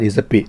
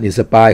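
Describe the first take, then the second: First: The second syllable has a short 'i' vowel. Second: The second syllable has a long 'eye' vowel. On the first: The speaker calls it right. "เขาอ่าน" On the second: The speaker calls it wrong. "ก็ไม่ได้อ่าน"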